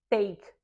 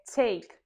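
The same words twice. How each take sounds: First: The T is released with no puff of air. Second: The T is released with a puff of air. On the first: The speaker calls it wrong. "não é take" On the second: The speaker calls it right. "é take"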